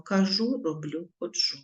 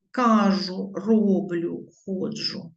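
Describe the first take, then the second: First: "кажу, роблю, ходжу" stressed ka-ZHU, ro-BLIU, kho-DZHU; correct stress on last syllables. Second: "Кажу, роблю, ходжу" stressed KA-zhu, RO-bliu, KHO-dzhu; dialect stress on first syllables. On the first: Teacher giving the correct forms, final-syllable stress in "кажу, роблю, ходжу". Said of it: "Правильно". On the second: Teacher showing dialect influence, first-syllable stress in "Кажу, роблю, ходжу". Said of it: "Правильно, кажу, роблю, ходжу". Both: Shown as a demonstration.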